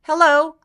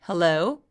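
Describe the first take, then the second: First: The voice is pitched high and tense. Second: The voice is pitched low and relaxed. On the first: The speaker calls it wrong. "목젖이 너무 위로 벗어나서 높게 나타나지 않도록" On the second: The speaker calls it right. "요 느낌으로 소리를 내면 된다"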